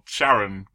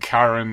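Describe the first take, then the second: First: The name begins with a soft SH sound. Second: The name begins with a hard K sound. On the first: It refers to the discoverer's wife. "my wife" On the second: It refers to the ferryman of the underworld. "the guy who's taking you to Hades"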